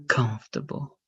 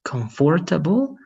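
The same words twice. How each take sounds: First: "comfortable" shortened to KUMF-ta-bul; "comfortable" said as COMF-ta-ble; reduced comfortable. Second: "comfortable" sounded out as com-FOR-ta-bol; "comfortable" said as spelt, com-for-ta-ble; full-syllable comfortable. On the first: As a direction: drop the OR in "comfortable", three syllables. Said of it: "which one would be better". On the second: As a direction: pronounce every syllable of "comfortable", with a clear FOR. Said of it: "the accent is different". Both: Shown as a demonstration.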